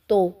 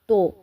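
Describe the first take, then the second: First: The vowel is an open 'oh' sound. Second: The vowel is an open 'oh' sound.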